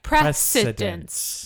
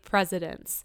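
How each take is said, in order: First: The middle C sound is clearly enunciated. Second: The middle sound is blurred, like presidents. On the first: "you purposely enunciated the C" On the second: "you said presidents"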